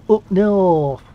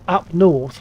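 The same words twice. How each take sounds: First: It is said in a northern English accent. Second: It is said in a southern English accent. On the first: "They will say up north" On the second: "they don't say north, up north"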